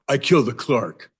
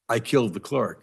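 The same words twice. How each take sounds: First: It is said with a sarcastic, mocking tone. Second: It is said flatly, like a sincere confession.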